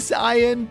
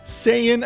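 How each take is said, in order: First: It is pronounced the Japanese way. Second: It is pronounced the English way. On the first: "it should be Saiyan" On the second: "has reached that critical"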